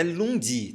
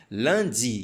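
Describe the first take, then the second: First: "lundi" mispronounced with an oo, as "loon-dee"; wrong U vowel. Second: "Lundi" with a nasal "lan" for "lun"; correct nasal vowel. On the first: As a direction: say "lundi" as spelt, with a plain U. ("lundi" errado, com som de "lun") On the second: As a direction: say "Lundi" the French way, as "lan-dee". ("Lundi" correto, com som nasal de "lan") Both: Shown as a demonstration. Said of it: "Não é lundi".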